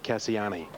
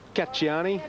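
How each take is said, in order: First: The name has a non-Italian pronunciation. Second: The name has an Italian pronunciation. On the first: This is what the owners call the horse. "connections want Cassiani because that's what the Japanese owners called the horse" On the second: This is how Italian speakers say the name. "Correct pronunciation is Cacciani. My Italian friends tell me"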